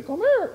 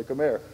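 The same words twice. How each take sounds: First: Much higher, louder call; imitating friend. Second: Said in the usual way. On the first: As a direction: pipe it up high like him.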